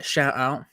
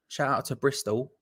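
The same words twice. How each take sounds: First: A clumsy stab at a Bristolian accent on two words; bad Bristolian accent. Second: Said in the usual way. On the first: Shown as a demonstration. Shouting out Bristol viewers in a terrible Bristolian accent. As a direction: ham up a West Country Bristol twang, badly. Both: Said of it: "That was a terrible attempt at a Bristolian accent".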